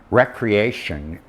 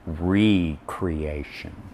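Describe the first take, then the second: First: The first syllable sounds like 'reck'. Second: The first syllable sounds like 'ree'.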